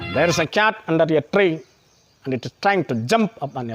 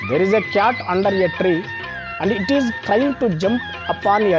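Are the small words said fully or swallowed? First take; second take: swallowed; fully. First: The small words are reduced and swallowed. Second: Every word is said clearly and fully.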